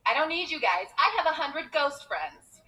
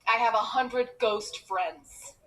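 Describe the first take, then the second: First: Put-on higher-pitched childish bragging; mock boast. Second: Slow, deliberate sarcastic delivery; deadpan sarcasm. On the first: Child boasting to schoolmates, mock defiant. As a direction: brag to the other kids in mock defiance. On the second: Retold or imitated. Child sarcastically answering mom about faraway friends, deadpan. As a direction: spell it out drily, slowly.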